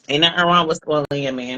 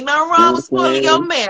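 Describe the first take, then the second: First: It is said at normal volume. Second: It is said louder, projecting outward.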